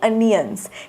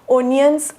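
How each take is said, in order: First: The word begins with an 'uh' sound. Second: The word begins with an 'o' sound. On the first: The speaker calls it right. "त्याचा उच्चार अनियन्स असा होतो" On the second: The speaker calls it wrong. "ओनियन्स असा उच्चार होत नाही"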